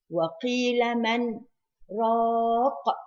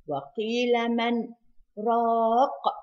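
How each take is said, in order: First: A slight breathless pause comes after "man". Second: The same.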